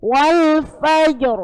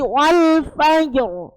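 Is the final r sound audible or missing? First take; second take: audible; audible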